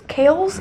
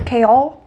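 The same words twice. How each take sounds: First: "Chaol's" said with a questioning rise; testing "Chaol's" as a question; unsure name try. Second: "Chaol" said firmly as a statement; settling on "Chaol" with a firm fall; another name try. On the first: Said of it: "Is that how you say his name?". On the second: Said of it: "Why are fantasy names so hard?". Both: Shown as a demonstration.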